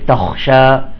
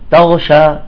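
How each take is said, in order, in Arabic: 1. الحرف الثاني خاء مهموسة واضحة. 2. الحرف الثاني غين مجهورة. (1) "يجب إظهارها حتى لا تنقلب إلى غين" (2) "بعضهم يقول تغشى تغشى، يأكل الخاء"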